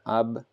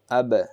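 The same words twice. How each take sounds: First: The final b stops flat with no bounce. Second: The final b is released with a bouncing echo. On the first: The speaker calls it wrong. "you're not going to say ab ... No, not like that" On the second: The speaker calls it right. "It has to bounce back ... Ab, like this"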